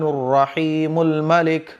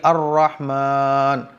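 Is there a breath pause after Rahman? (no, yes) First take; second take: no; yes. First: The names run together without a breath. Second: A breath pause comes after Rahman.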